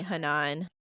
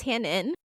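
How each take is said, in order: First: "Hanan" as huh-NAHN, stressed at the end; mispronounced surname. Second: "Hannon" as HAN-un, stressed on the first syllable; correct surname. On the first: Co-host mocks being misnamed by a friend, "Hanan" said huh-NAHN. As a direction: stretch the second syllable of "Hanan" to NAHN. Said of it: "It's like you calling me". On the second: Newlywed corrects mom's guess at the surname, "Hannon" said HAN-un. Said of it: "she thought it was Hannah". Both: Shown as a demonstration.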